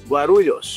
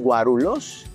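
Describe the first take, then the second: First: The middle 'l' is followed by a y-glide. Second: The middle 'l' is plain, with no y-glide. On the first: The speaker calls it right. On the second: The speaker calls it wrong.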